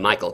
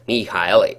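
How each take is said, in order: First: The name is said the everyday English way. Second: The name is said in a non-English way. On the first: The speaker calls it wrong. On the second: The speaker calls it right.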